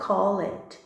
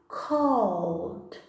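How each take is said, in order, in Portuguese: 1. O final é pronunciado como uma sílaba extra. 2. O final é só um som de 'd', uma sílaba. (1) "A gente não pronuncia o E, não é called" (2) "a pronúncia ficará called"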